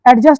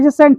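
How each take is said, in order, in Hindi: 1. पहले स्वर के बाद d की ध्वनि बोली जाती है। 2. पहले स्वर के बाद d की ध्वनि मौन रहती है। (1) "बहुत से लोग क्या बोलते हैं इसको एडजस्ट बोलते हैं" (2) "ये एजसेंट है"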